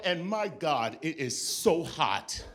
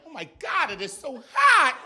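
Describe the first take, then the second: First: Said in the usual way. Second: Mock distress. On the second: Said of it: "I'm like".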